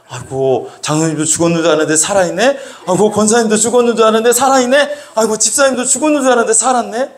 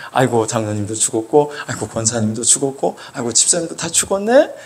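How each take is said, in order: First: Fast, rising disbelief, higher each time; mock astonishment. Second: Low, subdued roll call of the dead; tally each loss in a low voice; mock lament. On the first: Preacher finds the supposedly dead elders alive, mock astonishment. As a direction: marvel in a quick, climbing voice. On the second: Preacher lists church elders who seem dead, mock lament.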